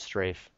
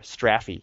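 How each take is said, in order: First: It is said in a non-British pronunciation. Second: It is said in a British pronunciation.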